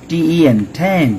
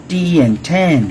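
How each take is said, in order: The two takes are said the same way.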